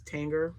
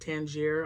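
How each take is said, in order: First: The name ends with an 'er' sound. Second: The name ends with a 'jeer' sound. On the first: This is how the speaker has always said it. "I always pronounced it as" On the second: This is how some other people say it. "Some pronounce it"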